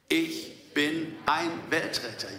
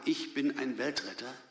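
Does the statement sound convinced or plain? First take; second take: convinced; plain. First: It is said with confident, believing conviction. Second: It is said plainly, without special conviction. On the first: "so als würden wir es glauben?" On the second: "Können wir das mal zusammen sagen?"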